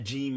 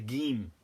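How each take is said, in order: First: It starts with a soft J sound. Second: It starts with a hard G sound. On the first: "a jim" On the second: "the Egyptians will pronounce uh, a jim as a gim"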